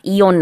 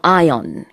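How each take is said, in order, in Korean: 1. 한국식 'ee-on'으로 발음해요. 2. 영어식 'eye-on'으로 발음해요. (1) "이온 아니고요" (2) "이온의 영어 발음은 ion 입니다"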